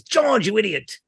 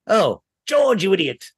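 First: Put-on higher, posh old film star voice; Ronald Coleman voice. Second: Put-on higher, old film star exasperation; Ronald Coleman voice. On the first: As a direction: Ronald Coleman's exasperated scold. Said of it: "his catchphrase is". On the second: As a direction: voice actor doing Ronald Coleman. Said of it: "saw the name George a lot and went".

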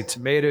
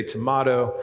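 First: "tomato" said tuh-MAY-do; long-a tomato. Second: "tomato" said tuh-MAH-toh; broad-a tomato. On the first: Preacher jokes about pronunciation choices, "tomato" with MAY. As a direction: middle of "tomato" rhymes with "may". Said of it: "you say tomato". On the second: Preacher gives the other side's version, "tomato" with MAH. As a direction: middle of "tomato" as open "mah". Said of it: "I say tomato". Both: Shown as a demonstration.

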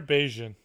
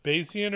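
First: "Bayesian" said as BAY-zhun; "Bayesian" run together as BAY-zhun; two-syllable pronunciation. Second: "Bayesian" said as BAY-zee-un; "Bayesian" in three syllables, BAY-zee-un; three-syllable pronunciation. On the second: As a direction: say "Bayesian" with a separate "zee" in the middle. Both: Shown as a demonstration. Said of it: "Is it pronounced Bayesian or Bayesian".

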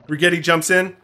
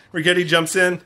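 Both takes have the same delivery.

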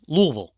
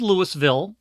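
First: LOUISVILLE slurred to LOO-vul; "Louisville" in two syllables, no S; local pronunciation. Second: LOUISVILLE as written, Lewis-ville; spelled-out pronunciation. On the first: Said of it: "but it's pronounced Louisville". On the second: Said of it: "it's spelled Louisville". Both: Shown as a demonstration.

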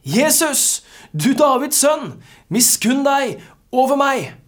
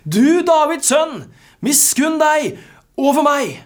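First: High, loud cry for mercy; calling out. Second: Very high, full-voiced desperate shout; louder shouting. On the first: Acted. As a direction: call out to Jesus over a crowd, pitched well up. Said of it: "satte han i å rope". (rope høyt og bedende) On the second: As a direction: shout it out slowly and loudly, refusing to be silenced. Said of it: "men han ropte bare enda høyere". (rope av full hals)

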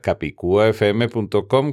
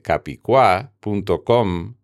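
First: Said in the usual way. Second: "capicua" said as ca-pi-CUA; missing-accent stress. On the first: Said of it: "la tilde visible". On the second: Shown as a demonstration. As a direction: run the u into a stressed final a in "capicua". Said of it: "sin tilde".

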